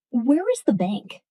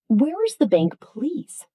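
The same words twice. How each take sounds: First: Said in the usual way. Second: Warmer. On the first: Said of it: "is okay". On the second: Shown as a demonstration. Teacher showing a warmer polite request. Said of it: "sounds warmer".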